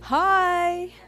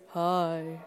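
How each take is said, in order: First: It is said at a high pitch. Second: It is said at a low pitch.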